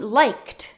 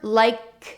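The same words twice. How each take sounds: First: The word ends with a strong t sound. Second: The word ends with no final t sound. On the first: The speaker calls it right. "you mean liked" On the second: The speaker calls it wrong. "they don't make any sound at the end of a verb"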